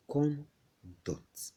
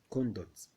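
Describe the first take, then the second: First: "conduct" broken into two separate syllables, con and duct; syllable split. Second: Said in the usual way. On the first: Shown as a demonstration. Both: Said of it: "you could divide it into two".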